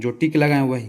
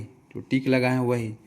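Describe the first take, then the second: First: जो टिक लगाए वही said louder, falling firmly on लगाए; firm instruction. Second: जो टिक लगाए वही drawn out slowly, each word spaced; slow repeat. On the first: Teacher telling students what to study, firm and louder. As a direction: state the rule firmly. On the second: Teacher repeating the rule to students, slowly. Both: Shown as a demonstration.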